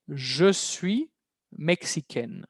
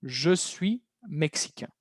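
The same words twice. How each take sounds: First: "mexicaine" ending "ken", N clearly sounded; "suis" rising, then "mexicaine" falling to a sounded N; feminine -aine ending. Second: "mexicain" ending on a nasal vowel, no N sounded; slow phrase, final N of "mexicain" unpronounced; masculine nasal ending. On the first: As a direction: model the phrase with "mexicaine" closing on an open E and N. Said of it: "Porque si es mujer, va a decir". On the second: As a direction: model slowly, "mexicain" closing in nasal "un". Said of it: "Si es masculino". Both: Shown as a demonstration.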